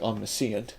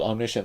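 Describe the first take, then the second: First: It is pronounced by following its spelling. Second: It is pronounced the usual way.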